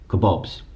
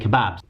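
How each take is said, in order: First: It is said in an American accent. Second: It is said in a British accent. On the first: "but they pronounced it kebabs" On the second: "I realised they were saying kebabs"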